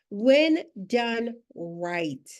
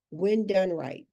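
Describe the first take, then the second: First: When done right, stretched very slowly; slow emphasis. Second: Said in the usual way. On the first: Shown as a demonstration. Coach repeats the key phrase to her audience, slowly stressed.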